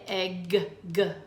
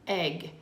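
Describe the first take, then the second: First: The final g sound is said twice. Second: The final g sound is said once. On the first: The speaker calls it wrong. "we don't say egg, G" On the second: The speaker calls it right. "We just say egg"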